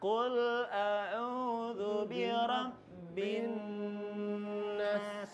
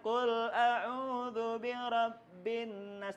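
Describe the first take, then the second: First: The n sound before nas is held long. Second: The n sound before nas is cut short. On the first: The speaker calls it right. "ketika ada mim nun berwarna" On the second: The speaker calls it wrong.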